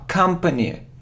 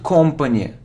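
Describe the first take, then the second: First: The first vowel sounds like 'uh'. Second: The first vowel sounds like 'o'. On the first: The speaker calls it right. "So the sound is a" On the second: The speaker calls it wrong. "It isn't company"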